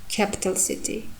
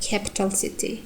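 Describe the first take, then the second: The two takes are said the same way.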